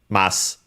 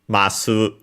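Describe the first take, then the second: First: The final u vowel is dropped entirely. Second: The final u vowel is clearly pronounced. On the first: "but more often than not uh, uh, it's uh" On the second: "sometimes you will uh, hear it as uh"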